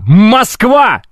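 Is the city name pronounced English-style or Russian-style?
Russian. The name is pronounced the Russian way. The speaker calls it right. "Это Москва"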